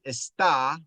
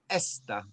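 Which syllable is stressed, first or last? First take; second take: last; first. First: The stress is on the last syllable. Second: The stress is on the first syllable. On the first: It means is. "One has a stress at the end. Está, that means is" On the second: It means this. "And esta means this"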